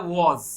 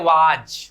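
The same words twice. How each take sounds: First: वॉज with a rounded aw and z ending; correct pronunciation. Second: WAS said as वाज, long aa and final j; Bhojpuri pronunciation. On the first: Shown as a demonstration. Language teacher correcting learners, correct pronunciation of वॉज. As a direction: say वॉज as English WAS, buzzing z at the end. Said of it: "ये होता है वॉज". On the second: Retold or imitated. Teacher imitating local speakers, Bhojpuri pronunciation of वाज. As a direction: draw out वाज, louder, with a j ending. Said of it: "Bhojpur जिले में होते हैं वो लोग इसको प्रोनाउंस करते".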